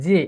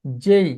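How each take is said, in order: First: "জে" with a short pure e; old habitual J. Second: "জেই" gliding from e into i; correct letter J. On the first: Teacher showing the habit to drop, short J. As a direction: end "জে" on a plain vowel, no glide. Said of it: "আসলে জে বলবো না". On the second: Teacher modelling the new way, gliding J. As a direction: stretch "জেই" into a jey diphthong. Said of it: "এখন থেকে বলবো জেই". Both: Shown as a demonstration.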